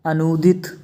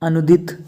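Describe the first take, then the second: First: अनुदित with a long "noo". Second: अनुदित with a quick "nu"; short u. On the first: Teacher correcting students, long oo in अनुदित. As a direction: stretch अनुदित into "anoodit". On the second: Teacher showing the error, short u in अनुदित. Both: Shown as a demonstration. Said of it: "छोटे ऊ और बड़े ऊ".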